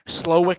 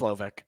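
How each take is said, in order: First: The middle consonant is a w sound. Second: The middle consonant is a v sound. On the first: The speaker calls it wrong. "doesn't sound right" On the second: The speaker calls it right. "I think it's Slovic"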